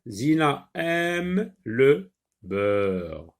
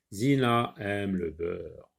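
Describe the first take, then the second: First: Zina aime le beurre read very slowly, word by word; slow syllable reading. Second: Said in the usual way. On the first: Shown as a demonstration. Teacher models slow reading for the child. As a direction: sound out each word slowly, like a beginner.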